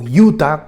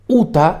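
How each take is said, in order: First: Utah is said with American English pronunciation. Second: Utah is said with Spanish pronunciation.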